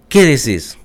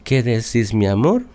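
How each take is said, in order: First: Curt tone. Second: Sweet tone. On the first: Wife answering her husband now, curt and blunt. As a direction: snap it back without the sweetness. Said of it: "Cambia la, el tono de la voz". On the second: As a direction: ask it gently, like a sweetheart. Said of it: "cambia el tono de la voz". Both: Retold or imitated.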